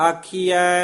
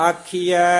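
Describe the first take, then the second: The two takes are said the same way.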